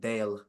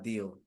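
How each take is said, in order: First: The vowel sounds like the one in 'day'. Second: The vowel sounds like the one in 'dee'. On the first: The speaker calls it wrong. "I thought I pronounced it like Dale" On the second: The speaker calls it right. "not deal"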